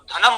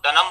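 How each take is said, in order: First: The first consonant is aspirated, dh. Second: The first consonant is unaspirated, d. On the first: The speaker calls it right. "धनम बोलना होगा" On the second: The speaker calls it wrong. "महाप्राण वर्णों को अल्प प्राण वर्ण के रूप में ही बोला जाता है"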